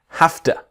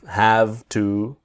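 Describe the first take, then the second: First: The word have ends with an f sound. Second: The word have ends with a v sound. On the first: The speaker calls it right. "the sound is an F. ... but have to" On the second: The speaker calls it wrong. "it's not have, have to"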